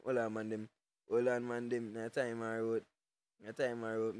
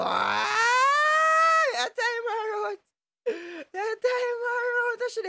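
First: Low and softer, almost to himself; muttered under breath. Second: High, slow, stretched-out shout; drawn-out yell. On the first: Streamer repeating the line to himself, low and soft. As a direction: drop it down low after the yell. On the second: Streamer yelling at a picture on stream, stretched high shout. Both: Real, not acted.

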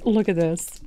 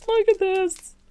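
First: Said in the usual way. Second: Higher, delighted repeat; excited. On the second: Real, not acted. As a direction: squeal it out in delight. Showing off new craft pieces.

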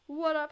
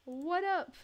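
First: What up? with WHAT punched loud; stress on WHAT. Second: What up? with UP hit high and falling; stress on UP. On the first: Greeting the neighbor a second time, stress on what. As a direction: lean hard on "What" in "What up?". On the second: Greeting a new neighbor in the game, stress on up. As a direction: lean hard on "up" in "What up?". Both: Pretend.

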